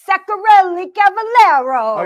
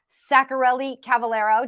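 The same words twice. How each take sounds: First: It is said in a put-on European accent. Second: It is said in the speaker's plain accent.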